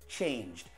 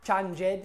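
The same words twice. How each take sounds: First: The ending joins the word with no extra syllable. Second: The ending is said as an extra syllable. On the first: The speaker calls it right. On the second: The speaker calls it wrong. "Not changed"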